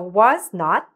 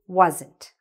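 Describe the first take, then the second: First: It is said as two separate full words. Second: It is said as one contracted word. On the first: "So was not became wasn't" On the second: "So was not became wasn't"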